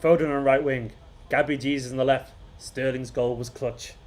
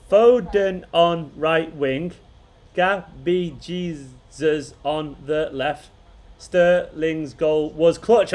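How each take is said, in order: First: Measured recital, falling on each line, fading softer at the end; proper haiku recital. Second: Each word drawn out slowly, haltingly; slow haiku reading. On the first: Streamer re-reading the winning haiku as a poem. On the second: Streamer reading a chat haiku to viewers, slowly. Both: Shown as a demonstration. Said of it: "I gotta say it like a proper haiku".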